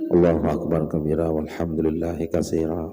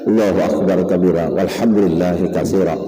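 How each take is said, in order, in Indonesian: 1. Dibaca pelan, mengikuti napas. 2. Dibaca keras, mudah terdengar. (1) "itu nang bujur" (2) "bila kamu nyaring bacaan tadi"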